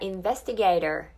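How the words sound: It ends with a curled r sound. "アメリカ英語だったらinvestigator になるんですけど"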